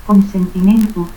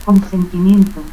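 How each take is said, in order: First: Consentimiento as "consentimentu"; dropped I. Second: Said in the usual way. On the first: Shown as a demonstration. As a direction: end Consentimiento in "-mentu". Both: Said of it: "ausencia de la I".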